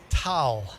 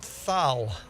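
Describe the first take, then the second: First: The syllable begins with a plain hard 't' sound. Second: The syllable begins with a soft 'th' sound. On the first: The speaker calls it right. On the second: The speaker calls it wrong. "Forget the T H at the end. Not thal"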